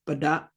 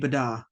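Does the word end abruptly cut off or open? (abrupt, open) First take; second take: abrupt; open. First: The word ends with an abrupt glottal cut-off. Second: The word ends openly without a glottal cut-off. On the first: The speaker calls it right. "if they're at the end, they're basically cutting off that word" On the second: The speaker calls it wrong. "It would just be bada, if we didn't have the glottal stop there"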